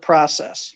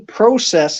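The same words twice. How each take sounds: First: The word is said with an American accent. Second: The word is said with a Canadian accent. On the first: The speaker calls it wrong. "instead of process" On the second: The speaker calls it right. "you got to say process"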